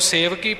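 It is said as one joined word. It carries a secondary meaning. The speaker calls it wrong. "ਸੇਵਕੀ ਪਾਠ ਇਕੱਠਾ ਗਾਉਣ ਪਾਠ ਹੈ"

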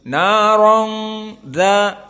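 The sound flows out through the nose. "harus keluar dari hidung"

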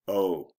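The 'oh' sounds disappointed. The speaker is let down by the news. "I'm disappointed"

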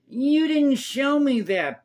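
It is said in an imitated put-on voice.

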